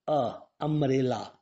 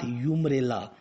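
First: The word begins with an 'uh' sound. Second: The word begins with a 'yoo' sound. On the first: The speaker calls it right. "It is producing the sound umbrella" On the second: The speaker calls it wrong. "not umbrella"

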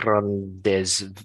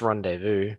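First: It is said with a Spanish-style pronunciation. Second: It is said with an English pronunciation. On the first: "as a Spanish speaker, they would probably try and pronounce it something like rendezvous" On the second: "That's how we would say it in English anyway"

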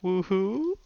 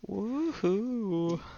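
First: It is said as a question, rising. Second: It is said as a plain exclamation, falling.

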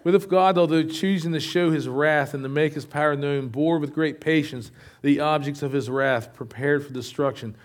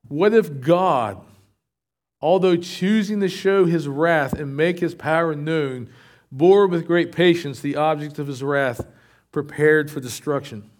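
First: It is read at a normal, faster pace. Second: It is read at a slower pace.

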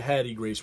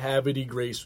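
First: The first part is said as two syllables. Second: The first part is said as three syllables. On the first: This is how locals say the name. The speaker calls it right. "we say Hattie Grace" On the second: This is how outsiders say the name. The speaker calls it wrong. "we don't say Havity Grace"

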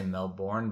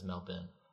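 First: It is said with an American accent. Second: It is said with an Australian accent. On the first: "the Americans say Melbourne" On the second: "some Australian kid in my class says Melbourne"

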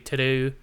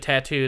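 First: It is said with an Australian accent. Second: It is said with an American accent.

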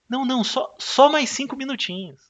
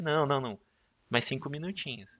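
First: It is said at a louder volume. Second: It is said at a softer volume.

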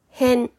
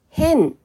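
First: The pitch starts low and rises after the first mora. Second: The pitch starts high and falls after the first mora. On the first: The area around a place. "二つ目の変はある場所の周辺のことです。" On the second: Strange or unusual. "一つ目の変は普通とは違う状態のことです。"

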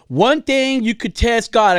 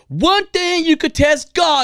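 First: It is said in the speaker's ordinary voice. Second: It is said in a put-on preacher voice.

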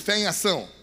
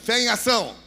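First: It is said at normal volume. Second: It is said louder and more forcefully.

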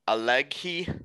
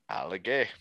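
First: The name is said with an English pronunciation. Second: The name is said with an Italian pronunciation. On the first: The speaker calls it wrong. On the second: The speaker calls it right.

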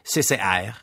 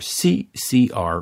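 First: The letters are said the Montreal French way. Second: The letters are said the English way.

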